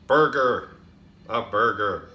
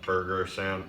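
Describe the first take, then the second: First: Much louder, insistent restatement; loud correction. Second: Said in the usual way. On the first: Acted. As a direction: bark the word out to fix it. Correcting the word with a shout.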